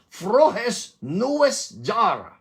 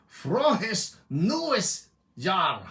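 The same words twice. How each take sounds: First: Louder, slow German greeting; German accent. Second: Slow, drawn-out German greeting; German accent. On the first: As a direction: belt it out slowly with a German accent. (malakas at mabagal na German na pagbati) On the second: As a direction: say it like a German would, very slowly. (mabagal na German na pagbati) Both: Shown as a demonstration. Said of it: "Ba't nagbabago yung tono mo".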